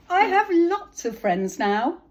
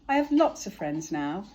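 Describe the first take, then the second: First: It is said very loudly. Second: It is said at a normal, quieter volume.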